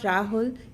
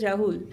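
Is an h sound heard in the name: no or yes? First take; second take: yes; no. First: The name is said with an h sound. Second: The name is said without an h sound. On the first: The speaker calls it wrong. "it's not Rahul" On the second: The speaker calls it right. "I read his na- name as R A U L"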